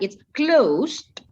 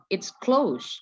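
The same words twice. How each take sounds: First: The voice rises at the end. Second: The voice falls at the end. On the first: It asks whether something is closed. "naik kan" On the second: It informs that something is closed. "Berarti Miss tuh kasih tahu tutup"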